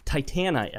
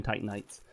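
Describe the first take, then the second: First: "Titanite" as tie-TAN-ite, middle syllable sounded out and higher; corrected pronunciation. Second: Said in the usual way. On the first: Shown as a demonstration. Correcting himself on the item's name, "Titanite" said tie-TAN-ite. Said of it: "I think is how it's supposed to be pronounced". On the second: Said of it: "how it's supposed to be pronounced".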